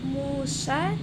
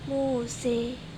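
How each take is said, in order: First: The final vowel is a plain open a. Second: The final vowel is fronted toward e.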